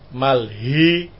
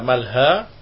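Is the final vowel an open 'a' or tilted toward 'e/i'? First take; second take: tilted e; open a. First: The final vowel is tilted toward e or i. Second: The final vowel is an open a sound.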